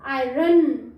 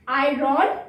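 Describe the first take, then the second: First: आयरन as eye-run, last vowel a short uh; slow, loud teaching आयरन ending in a held n; O as schwa. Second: आयरन misread as eye-RON; wrong pronunciation. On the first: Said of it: "वो अ हो जाता है". (आयरन में ओ को 'अ' बोलना) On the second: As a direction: say आयरन with a full O and a sounded R. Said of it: "नहीं". (आयरन को गलत, 'आइ-रॉन' बोलना) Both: Shown as a demonstration.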